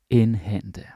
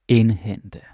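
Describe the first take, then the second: No difference in how they are said.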